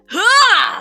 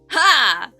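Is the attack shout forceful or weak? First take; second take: forceful; weak. First: The shout is forceful with physical energy behind it. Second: The shout is light with little force behind it. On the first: The speaker calls it right. "if you put your whole arm in it" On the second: The speaker calls it wrong. "if you just go"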